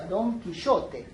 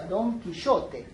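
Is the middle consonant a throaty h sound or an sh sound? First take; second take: sh; sh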